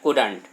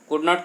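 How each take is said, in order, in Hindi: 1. यह एक संकुचित शब्द की तरह बोला जाता है। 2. यह दो अलग-अलग पूरे शब्दों की तरह बोला जाता है। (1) "सही तरीका ये कि कुडंट पढ़े" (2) "या इसको कुड नॉट कह सकते हैं"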